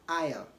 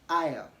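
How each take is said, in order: Both takes have the same delivery.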